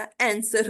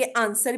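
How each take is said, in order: First: आंसर starting with the a of cat; correct vowel. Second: आंसर with a long open aa start; wrong vowel. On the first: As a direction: open आंसर as an-ser. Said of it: "आंसर होता है". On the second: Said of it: "आंसर भी नहीं होता". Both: Shown as a demonstration.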